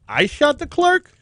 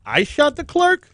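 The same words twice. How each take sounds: First: It is said as a rising question. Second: It is said as a rising question.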